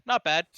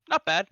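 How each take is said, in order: No difference in how they are said.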